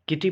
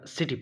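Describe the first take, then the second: First: The word begins with a k sound. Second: The word begins with an s sound. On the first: The speaker calls it wrong. "किटी पढ़ते हैं या सिटी पढ़ते हैं?" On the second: The speaker calls it right. "सी के बाद जब आई आ रहा हो तो हम सी का उच्चारण स करते"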